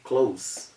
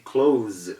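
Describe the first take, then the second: First: The final consonant is an s sound. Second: The final consonant is a z sound. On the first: The speaker calls it wrong. "It is wrong to say close" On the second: The speaker calls it right. "It has the Z sound ... So we say close"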